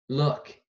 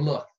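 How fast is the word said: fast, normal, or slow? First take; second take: slow; fast. First: The word is said very slowly. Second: The word is said very quickly. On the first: "it's really slow, super slow mode" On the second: "full speed ahead. Fast as you can"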